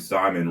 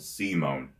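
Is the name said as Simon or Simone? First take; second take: Simon; Simone. First: The name is said as Simon. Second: The name is said as Simone. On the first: The speaker calls it wrong. "I was pronouncing Simon wrong the whole time" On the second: The speaker calls it right. "that is called Simone"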